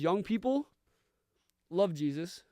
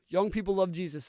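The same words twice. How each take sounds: First: It is said as an urging call to listeners. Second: It is said as a plain, matter-of-fact statement. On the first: It urges young listeners to love Jesus. "the way I want to say this quote today" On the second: It reports that young people do love Jesus. "as a factual statement"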